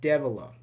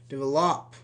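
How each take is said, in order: First: The final syllable is left unstressed. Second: The stress falls on the final syllable. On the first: The speaker calls it right. "No, develop" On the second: The speaker calls it wrong. "You don't say develop"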